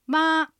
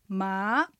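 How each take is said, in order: First: The syllable has a high, level pitch. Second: The syllable has a rising pitch. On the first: "一声" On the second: "二声"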